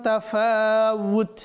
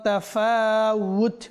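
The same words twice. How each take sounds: Both takes have the same delivery.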